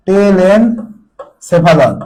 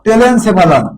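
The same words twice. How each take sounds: First: Each syllable of টেলেনসেফালন drawn out very slowly; slow dictation. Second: Said in the usual way. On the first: Shown as a demonstration. Teacher to students taking notes, টেলেনসেফালন stretched out very slowly. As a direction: spell out টেলেনসেফালন syllable by syllable for the class to write. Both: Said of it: "লিখো".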